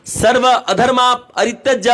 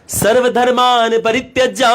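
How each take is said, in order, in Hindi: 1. शुरुआत टुकड़ों में बंटी है, और उसमें एक अतिरिक्त 'a' की आवाज़ जोड़ी गई है। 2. शुरुआत एक ही शब्द के रूप में कही गई है, sarvadharman। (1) "इसकी जगह बोलता था" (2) "जैसे अगर बोलना है"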